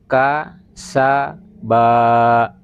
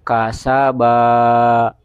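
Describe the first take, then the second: First: Each syllable is said separately with pauses between. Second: The syllables run together without any pauses. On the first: The reader is still unsure of the letters. "supaya dibaca putus-putus saja" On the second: The reader already knows the letters well. "maka cara membacanya seperti ini"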